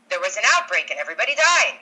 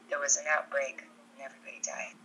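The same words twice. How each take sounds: First: It is said in a voice unlike the character's. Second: It is said in the character's own voice. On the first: The speaker calls it wrong. "No, no, no, that's not right" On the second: The speaker calls it right. "There we go. There's Alice, right?"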